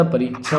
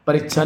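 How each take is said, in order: First: Said in the usual way. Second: परीक्षा with short i, "parichha"; mispronounced परीक्षा. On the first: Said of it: "परीक्षा होता है शुद्ध". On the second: Shown as a demonstration. Teacher showing the wrong spelling, परीक्षा with short i. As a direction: shorten the middle vowel of परीक्षा. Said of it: "परीक्षा नहीं होता".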